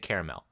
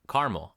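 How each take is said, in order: First: The word gets a fancier, more formal pronunciation. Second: The word gets a plain, everyday pronunciation. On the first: It refers to a fancy caramel. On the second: It refers to ordinary caramel.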